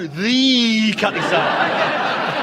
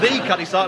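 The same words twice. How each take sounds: First: The word 'the' is stretched out long. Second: The word 'the' is said short and normally. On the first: "he didn't go the Cutty Sark" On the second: "like normal people do"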